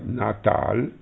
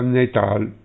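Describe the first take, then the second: First: The first vowel is an open 'a' sound. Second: The first vowel is an 'e' sound. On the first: This is the current form of the word. "la parola Natal" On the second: This is the old form of the word. "Una volta la parola Natal si pronunciava Netal"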